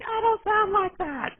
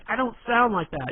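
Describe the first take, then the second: First: It is said in a high, shrill put-on voice. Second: It is said in an ordinary speaking voice. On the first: He mocks her objection. "it's a bad impression, but you know it's funny" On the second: She objects to the impression. "she'll be like"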